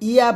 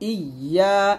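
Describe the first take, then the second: First: The y sound is short and single. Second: The y sound is held long and doubled. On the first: The speaker calls it wrong. "ইয়া বলবেন না" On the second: The speaker calls it right. "একসাথে হবে"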